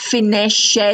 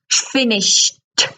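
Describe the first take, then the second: First: The ending is said as an extra syllable. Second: The ending is said as a short t sound. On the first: The speaker calls it wrong. "it ends in ed, but it's not pronounced finished" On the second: The speaker calls it right. "it's finished, ... So it's this one, t"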